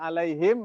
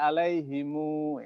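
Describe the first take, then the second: First: The word ends on a closed m sound. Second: The word ends with an added u vowel.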